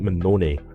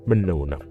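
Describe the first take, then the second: First: The name ends with an added vowel sound. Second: The name ends on the n sound. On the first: This is how some people say the name. "some people pronounce it Manone" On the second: This is how the speaker believes the name is said. "I think it's Manon"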